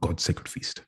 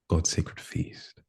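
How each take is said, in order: First: It is said forcefully and quickly. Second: It is said gently and slowly.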